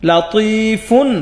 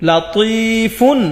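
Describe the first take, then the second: Both takes have the same delivery.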